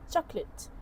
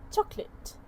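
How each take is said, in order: First: The middle vowel is dropped. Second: The middle vowel is dropped.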